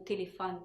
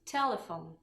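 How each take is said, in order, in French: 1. Il est prononcé à la française. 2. Il est prononcé à l'anglaise. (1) "le O final n'est pas pareil comme en français" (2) "qui se dit telephone"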